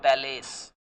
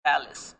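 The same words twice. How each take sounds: First: Palace with a full "ace" ending; palace, second vowel drawn to "ay"; wrong pronunciation demo. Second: Palace with a short "is" ending; Palace, weak short second vowel; correct pronunciation demo. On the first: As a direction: say palace loudly as pal-ACE. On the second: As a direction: say Palace as PAL-is. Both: Shown as a demonstration. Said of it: "not palace".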